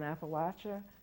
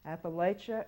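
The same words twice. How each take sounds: First: The word gets the locals' pronunciation. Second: The word gets the outsiders' pronunciation. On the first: The speaker is on the side the locals trust. The speaker calls it right. "means that you are on the side that we trust" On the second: The speaker does not want to be associated with the place. The speaker calls it wrong. "the pronunciation of condescension, the pronunciation of the imperialists"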